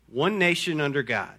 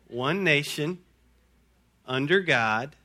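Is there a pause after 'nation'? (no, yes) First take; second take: no; yes. First: There is no pause after 'nation'. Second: There is a pause after 'nation'. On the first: The speaker calls it right. "The correct version goes like this" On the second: The speaker calls it wrong. "I'm going to say it how I learned it"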